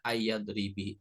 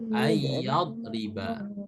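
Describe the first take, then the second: First: The word ends with an i vowel. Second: The word ends with an a vowel. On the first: The speaker calls it wrong. "nggak boleh kasroh" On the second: The speaker calls it right. "harokatnya harus fathah"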